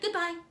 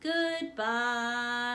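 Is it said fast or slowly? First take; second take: fast; slowly. First: It is said very fast. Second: It is said very slowly.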